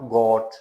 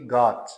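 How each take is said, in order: First: The vowel is a rounded 'o' sound. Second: The vowel is a short open 'ah' sound. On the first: The speaker calls it wrong. "नॉट गॉट, गॉट नहीं कहना" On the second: The speaker calls it right. "Short आ sound"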